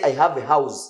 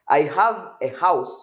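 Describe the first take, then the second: First: The last word ends with a z sound. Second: The last word ends with an s sound. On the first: The speaker calls it wrong. "Don't say I have a house. Za, za, za" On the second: The speaker calls it right. "We say S, house"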